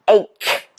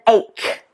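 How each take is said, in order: First: The word is said with a 'k' sound. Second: The word is said with a 'k' sound.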